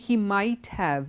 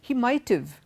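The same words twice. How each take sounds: First: 'Might have' is said as two full words. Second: 'Might have' is contracted to 'might've'. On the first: The speaker calls it wrong. "We don't say" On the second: The speaker calls it right. "When you say it together as a contraction"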